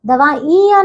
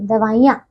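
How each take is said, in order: First: दवाइयाँ with a long, raised "ee"; mispronunciation. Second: दवाइयाँ with a short "i", pitched low; correct pronunciation. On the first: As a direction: stretch the middle of दवाइयाँ: davaaeeyaan. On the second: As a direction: keep the middle "i" of दवाइयाँ short. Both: Shown as a demonstration. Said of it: "दवाइयाँ नहीं".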